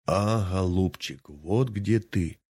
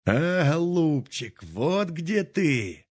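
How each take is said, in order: First: Lightly voiced squeak of a bird's beak, drawn slowly; a hint of a squeaky bird's beak. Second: High, slow and drawn-out cry of triumph; old man exulting over the buried pot; gleeful exclamation. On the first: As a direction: mimic the beak mocking him. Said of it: "запищал птичий нос". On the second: Acted. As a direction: crow over the find, stretching each word. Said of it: "вскрикнул дед".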